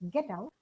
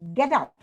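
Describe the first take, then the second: First: It is said as a polite request. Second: It is said as a firm command. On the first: The listener is asked politely to leave. "it becomes a request" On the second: The listener is ordered to leave. "it's a command"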